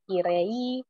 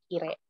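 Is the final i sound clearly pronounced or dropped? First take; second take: clear; dropped. First: The final i sound is clearly pronounced. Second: The final i sound is dropped. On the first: The speaker calls it wrong. "tidak i dengan jelas jadi kirei" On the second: The speaker calls it right. "tapi kire"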